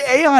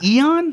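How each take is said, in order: First: The word begins with an 'ay' sound. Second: The word begins with an 'ee' sound. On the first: The speaker calls it wrong. "I called it Aeon" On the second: The speaker calls it right. "It's Eon"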